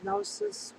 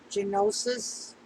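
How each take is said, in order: First: The initial G is silent, starting with n. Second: The initial G is pronounced before the n. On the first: "If it's silent" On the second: "I think the G is silent, but if it's not"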